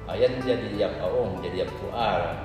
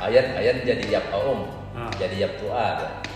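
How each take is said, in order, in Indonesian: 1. Frasa itu diucapkan dengan tempo normal, agak cepat. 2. Frasa itu diucapkan dengan lambat dan hati-hati.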